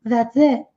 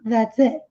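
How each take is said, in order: No difference in how they are said.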